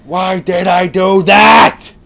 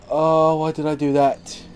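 First: Slow, very loud, high yell; anguished shout. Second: Higher-pitched whine of regret; regretful moan. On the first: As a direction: scream it out word by word. Repeats it as a shout. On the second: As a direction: groan at your own mistake. Regrets his mistake, first take. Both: Real, not acted.

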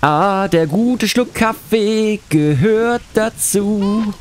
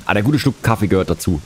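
First: Higher, very slow put-on voice; disguised voice. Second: Said in the usual way. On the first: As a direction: stretch it out in a silly voice. (verstellte Stimme, langsam und höher) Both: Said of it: "mit verstellter Stimme vor".

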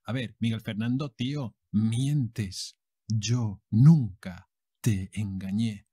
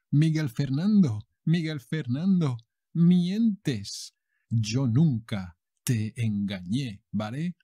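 First: Said in the usual way. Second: Telenovela heroine accusing. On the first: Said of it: "repeat for learners". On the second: Acted. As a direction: accuse him like a betrayed heroine. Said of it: "And she goes like".

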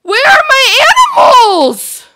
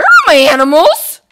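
First: Much higher, loud desperate shout; panicked yell for her lost animals. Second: Louder, higher worried question; alarmed call for missing pets. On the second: Finds animals gone. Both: Real, not acted.

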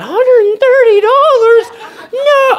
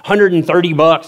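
First: Very high, loud, drawn-out shriek; hammed-up falsetto shock; shocked disbelief. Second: Said in the usual way. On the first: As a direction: echo the price in squealing horror. Shocked echo of ticket price.

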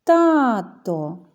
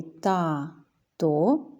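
First: Loud call with long TA in «Тато». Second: «тато» as ta, pause, to; split into syllables. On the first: Teacher shows children the stress, «Тато» called out. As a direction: call out «Тато», stretching the stressed first syllable. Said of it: "неначе гукаємо". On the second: Teacher counts syllables for children, «тато» split in two. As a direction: say «тато» in two slow, separate beats. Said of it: "два склади". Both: Shown as a demonstration.

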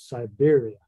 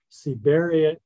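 First: "Siberia" starting with a "sigh" sound, "beer" stressed; English pronunciation. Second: "Siberia" starting with a "see" sound, "beh" stressed; Spanish pronunciation. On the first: Birder translating the place name for the audience, English pronunciation. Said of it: "pronounced in English". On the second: Birder telling the audience the cloud forest's name, Spanish pronunciation. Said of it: "pronounced in English, is Siberia". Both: Shown as a demonstration.

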